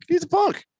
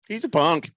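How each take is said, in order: First: High, comic protest at being questioned; high-pitched insistence. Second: Said in the usual way. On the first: Real, not acted. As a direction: voice jumps way up, exasperated. Insists when pressed for reasons.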